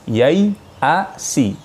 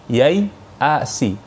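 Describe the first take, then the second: No difference in how they are said.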